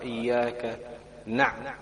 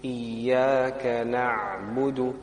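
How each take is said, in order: First: The ayn is jerked with a bouncing release. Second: The ayn is held smoothly without a bounce. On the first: The speaker calls it wrong. "if you read it with a little bit of force, then it sounds like a qalqala" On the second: The speaker calls it right. "So we hold the ayn, just hold it"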